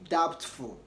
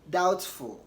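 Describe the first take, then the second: No difference in how they are said.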